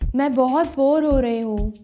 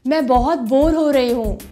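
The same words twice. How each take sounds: First: It is said at a soft volume. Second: It is said at a medium volume.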